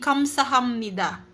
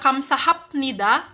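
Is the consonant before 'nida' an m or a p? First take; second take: m; p. First: An m sound comes before 'nida'. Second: A p sound comes before 'nida'. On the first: The speaker calls it right. "magiging M sound daw po si piyap" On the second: The speaker calls it wrong. "Imbes na kamsahapnida"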